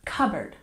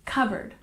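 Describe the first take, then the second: No difference in how they are said.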